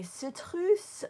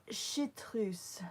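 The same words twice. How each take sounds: First: "citrus" for chartreuse, opening on S, stressed loud; s at the start. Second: "chartreuse" opened on SH rather than S; sh at the start. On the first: Asking Julie which pronunciation she uses, s at the start. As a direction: say "citrus" starting with a clear S sound. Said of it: "Am I saying it right". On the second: Asking Julie which pronunciation she uses, sh at the start. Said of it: "Which one do you say?". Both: Shown as a demonstration.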